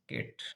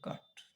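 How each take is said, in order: First: The vowel is a front 'ae' sound. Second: The vowel is a long open 'aa' sound. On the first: This is how the word is actually spoken. "इसको बोला जाता है कैट" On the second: This is how the spelling reads letter by letter. "इसको अलग से पढ़ा जाए तो काट"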